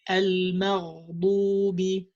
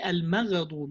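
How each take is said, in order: First: The gh sound is held longer and smoothly. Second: The gh sound is cut short with a bounce. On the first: The speaker calls it right. "You have to give the ghain more time" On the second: The speaker calls it wrong. "might have a qalqala with it ... You don't say al-maghdubi"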